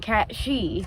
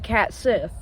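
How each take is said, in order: First: The second word sounds like 'shee'. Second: The second word sounds like 'sith'. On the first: The speaker calls it right. "it's actually pronounced the Cat She" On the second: The speaker calls it wrong. "No, we're not talking about the Star Wars Sith"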